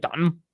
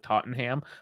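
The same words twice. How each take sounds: First: The syllables are slurred together, as if drunk. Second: Every syllable is pronounced clearly. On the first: "say it like you're drunk constantly" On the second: "when we actually pronounce our, our words"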